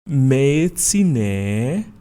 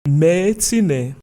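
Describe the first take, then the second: First: The final vowel is repeated and drawn out. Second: The final vowel is short and not repeated. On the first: I am not here. "I am not here" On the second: I am here. "I am here"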